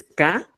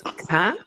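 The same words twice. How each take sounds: First: K as a plain ka, unaspirated; simple k. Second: K as kha, with a puff of air; aspirated k. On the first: Teacher contrasting phonemes, simple K. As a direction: say K with no puff or pop. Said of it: "El simple es K". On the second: Teacher contrasting phonemes, aspirated K. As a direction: breathe out hard after the K. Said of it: "el aspirado es K". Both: Shown as a demonstration.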